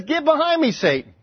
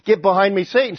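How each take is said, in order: First: Pointed, high-pitched rebuke dropping on the last word; a mock stage whisper, voiced for everyone to hear. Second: Said in the usual way. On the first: Jesus rebuking Peter for all disciples to hear, stage whisper. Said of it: "kind of a stage whisper". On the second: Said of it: "he rebuked Peter".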